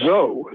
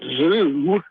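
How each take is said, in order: First: The syllable has an 'oh' vowel. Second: The syllable has an 'oo' vowel. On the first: The speaker calls it right. "Zo, not zoo" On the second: The speaker calls it wrong. "not zoo"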